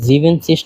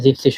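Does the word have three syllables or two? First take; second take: three; two. First: The word is said with three syllables. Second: The word is said with two syllables. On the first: The speaker calls it wrong. "এটা জিভেনসিস না হয়" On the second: The speaker calls it right. "জিপসিস হইতেছে"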